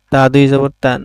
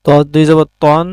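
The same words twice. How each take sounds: First: "তান" said with a thin, open a; light ت sound, "তান" with a clear a; light letter with tanween. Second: "তন" said with a full, dark o; heavy ط sound, "তন" rounded like o; heavy letter with tanween. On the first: (পাতলা স্বরে "তান") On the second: (মোটা স্বরে "তন") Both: Shown as a demonstration. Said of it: "তানবিনের মাধ্যমে হরফের উচ্চারণের পার্থক্য".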